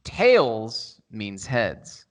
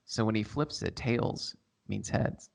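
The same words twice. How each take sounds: First: Drawn-out, very slow ASMR line. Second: Slow breathy ASMR whisper. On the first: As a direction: stretch each word, ASMR style. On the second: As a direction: whisper it into the mic. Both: Pretend. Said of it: "Minute starting A S M R now".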